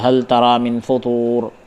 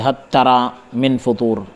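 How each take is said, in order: First: The L is pronounced clearly before the T. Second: The L merges into the following T sound. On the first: This is the common reading of the verse. "इजहार के साथ हम पढ़ते हैं" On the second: This is one reciter's reading of the verse. "Abu अम्र ने सूरह मुल्क में इदगाम के साथ पढ़ा है"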